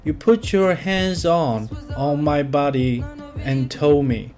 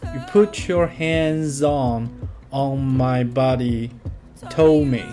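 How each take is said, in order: First: The word 'and' is pronounced before 'told me'. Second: The word 'and' is dropped before 'told me'. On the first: The speaker calls it wrong. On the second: The speaker calls it right.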